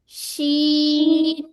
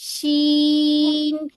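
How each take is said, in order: The two takes are said the same way.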